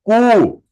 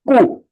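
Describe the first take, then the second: First: The vowel is said long. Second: The vowel is said short. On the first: "Dirgha one. Longer one" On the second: "this is a short"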